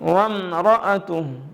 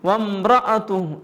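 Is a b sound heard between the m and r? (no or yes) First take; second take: no; yes. First: The m goes straight into r. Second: A b sound slips between m and r. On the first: The speaker calls it right. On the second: The speaker calls it wrong.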